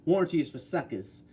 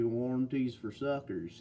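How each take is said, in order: First: Lightly performed catchphrase, evenly paced; imitating a commenter's catchphrase. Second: Slow, softer Mississippi drawl; easygoing Mississippi imitation, drawn out and softer; Mississippi accent. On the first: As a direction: quote it like the commenter says it. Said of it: "He says it like that". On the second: Shown as a demonstration. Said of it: "if we were doing Mississippi".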